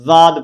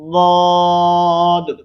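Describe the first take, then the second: First: It begins with a z sound. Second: It begins with a heavy, thick d sound. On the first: The speaker calls it wrong. "जा के मुशाबे करना है, जाद पढ़ती हैं, तो ये भी गलत है" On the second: The speaker calls it right. "मोटा करते हुए"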